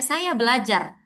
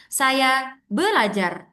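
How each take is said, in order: First: "Saya belajar" said evenly with no strong stress; plain Indonesian flat. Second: "Saya belajar" slowed, with weight on "belajar"; stress on belajar. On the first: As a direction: show the flat Indonesian rhythm. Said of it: "ngomong aja". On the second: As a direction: push the stress onto "belajar". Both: Shown as a demonstration.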